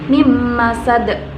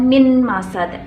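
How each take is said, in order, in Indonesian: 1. Bunyi n melebur ke bunyi m setelahnya. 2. Bunyi n tetap jelas sebelum m. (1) "maka dibaca mim masad" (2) "bukan min masad"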